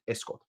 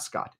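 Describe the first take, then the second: First: Scott said the Italian way, rounded 'o'; Italian pronunciation. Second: Scott as the plain English name; wrong pronunciation. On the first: Showing what the Italians really say, Scott with Italian rounded vowel. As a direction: say Scott as an Italian would, softly. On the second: Showing what the Italians don't say, Scott in plain English. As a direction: say Scott with an open American 'ah'. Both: Shown as a demonstration. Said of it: "Not Scott".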